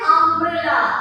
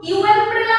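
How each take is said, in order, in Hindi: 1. शब्द 'uh' ध्वनि से शुरू होता है। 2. शब्द 'yoo' ध्वनि से शुरू होता है। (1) "हम बोल रहे हैं अम्ब्रेला" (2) "तो यू एम्ब्रेला हम बोल रहे हैं, नहीं"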